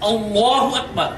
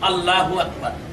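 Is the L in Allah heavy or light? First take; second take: heavy; light. First: The L in Allah is thick and heavy. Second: The L in Allah is thin and light. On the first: The speaker calls it right. "লাম খাড়া জবর ল হবে, লা হবে না" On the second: The speaker calls it wrong. "কিন্তু উচ্চারণটি সঠিক নয়"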